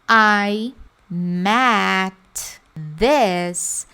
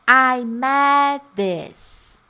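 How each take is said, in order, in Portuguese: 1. Met e this são ditas como palavras separadas. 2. Met e this estão ligadas, com um som omitido. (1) "fazendo esse momento aqui de met e depois de this" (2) "a tendência é fazer o que"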